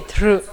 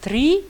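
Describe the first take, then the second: First: The r is syllabic with no vowel after. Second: The r is followed by an i vowel. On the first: The speaker calls it right. "en réalité, c'est tr" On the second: The speaker calls it wrong. "il y a des gens qui disent tri"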